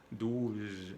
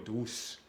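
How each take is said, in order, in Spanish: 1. La consonante es un sonido z vibrante. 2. La consonante es un sonido s silbante. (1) "La Z en francés se pronuncia como la abeja que hace zzz"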